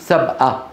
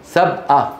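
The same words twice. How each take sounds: No difference in how they are said.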